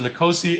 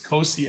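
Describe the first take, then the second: First: The name starts with an N sound. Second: The name starts directly with a K sound. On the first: The speaker calls it right. "so you pronounce the N" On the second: The speaker calls it wrong. "correct my pronunciation"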